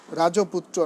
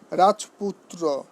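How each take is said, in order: First: রাজপুত্র as rajo-putro, extra o after j; wrong pronunciation. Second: রাজপুত্র slowly as raj-putro, no linking o; correct pronunciation. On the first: Teacher showing students what to avoid, wrong pronunciation. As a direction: say রাজপুত্র with an added middle o. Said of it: "নয়". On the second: Teacher giving an exception to the rule, correct pronunciation. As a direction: say রাজপুত্র with j straight into p. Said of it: "ব্যতিক্রম কি". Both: Shown as a demonstration.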